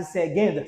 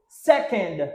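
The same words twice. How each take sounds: First: "second" with g in place of k; mistaken g sound. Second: "Second" with a crisp k in the middle; correct k sound. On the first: Teacher showing learners the mistake to avoid, mistaken g sound. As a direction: say "second" as SEG-end. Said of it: "Pa di second, silvouplè". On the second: Teacher modelling English for learners to repeat, correct k sound. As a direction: say "Second" as SEK-end, no g. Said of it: "Pa di second". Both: Shown as a demonstration.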